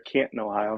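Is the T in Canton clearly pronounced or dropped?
dropped. The T in Canton is dropped, local-style.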